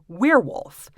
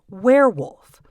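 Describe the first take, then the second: First: The first vowel sounds like ear. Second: The first vowel sounds like air. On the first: "someone with a Midwestern accent might say" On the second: "the classic American Standard accent uses the diphthong air"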